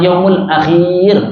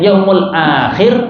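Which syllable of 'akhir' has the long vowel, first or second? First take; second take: second; first. First: The vowel after kh is long. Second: The first vowel of akhir is long. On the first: The speaker calls it wrong. "kha-nya yang dipanjangkan" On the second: The speaker calls it right. "hanya panjang"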